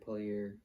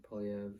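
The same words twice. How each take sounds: First: Poilievre ending in an AIR sound; alternate pronunciation. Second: Poilievre ending in a V sound; alternate pronunciation. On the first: Host trying out a politician's name, Poilievre ending in "air". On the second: Host correcting himself on a politician's name, Poilievre ending in "ev". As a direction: say Poilievre like "polly-EV". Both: Shown as a demonstration. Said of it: "everyone fucking pronounces his name different".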